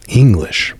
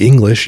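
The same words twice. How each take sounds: First: English set apart by a pause, slow and emphatic; pause, then lean hard on English; stress on English. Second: Said in the usual way. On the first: Shown as a demonstration. Comparing the Irish to the English, stressing English slowly after a pause. Emphatic second sense of the word.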